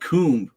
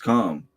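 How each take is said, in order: First: The vowel is a long 'oo' sound. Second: The vowel is an 'oh' sound. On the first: The speaker calls it wrong. "it's not coomb" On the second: The speaker calls it right. "it's calm"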